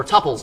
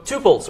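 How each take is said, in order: First: "tuples" with a short u, TUP-pulls; TUP-pulls, first syllable rhyming with "cup"; alternative pronunciation of tuples. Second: "tuples" with a long oo, TOO-pulls; TOO-pulls, first syllable like "two"; one pronunciation of tuples. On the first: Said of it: "probably technically tuples". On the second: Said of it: "depending on who you ask". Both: Shown as a demonstration.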